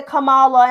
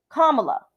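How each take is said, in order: First: Kamala with stress on the middle, kuh-MAH-la. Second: Kamala as comma plus la, stress on the first syllable; correct pronunciation. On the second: Teaching viewers her name: Kamala said like comma plus la. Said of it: "when you say comma and you put the la". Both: Shown as a demonstration.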